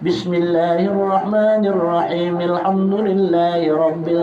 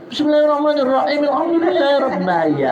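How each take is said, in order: First: It is recited slowly and clearly. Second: It is recited quickly and hurriedly. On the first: Those praying behind have time to follow. The speaker calls it right. "dengan tar tartil dan harus jelas" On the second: Those praying behind have no time to finish. The speaker calls it wrong. "kasihan waktu hadi belakang"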